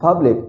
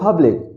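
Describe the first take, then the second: First: Only one syllable gets the stress. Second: Only one syllable gets the stress.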